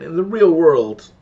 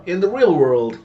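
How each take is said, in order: First: In the real world, real punched much louder and slow; slow, loud, insistent on real; exasperated repeat, real stressed hard; emphatic again. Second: Real punched loud and high; in the real world, leaning on real; stress on real. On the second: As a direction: hit the word real hard. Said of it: "Again, in the real world". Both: Real, not acted.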